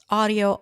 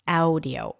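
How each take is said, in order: First: The first vowel is one steady 'ah' sound. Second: The first vowel glides like 'ow' in now. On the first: The speaker calls it right. "It's audio" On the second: The speaker calls it wrong. "It's not a changing sound. It's not audio"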